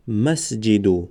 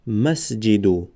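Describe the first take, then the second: First: مسجدو drawn out slowly, pausing briefly on the silent س; slow spelled-out مسجدو. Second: Said in the usual way. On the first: Shown as a demonstration.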